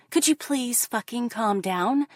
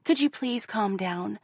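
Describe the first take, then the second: First: Pleading again, patience gone, pushing up in pitch; the same plea snapping into frustration; mock exasperated plea. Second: Lightly voiced gentle coaxing; mock calm pleading. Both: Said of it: "they tell me".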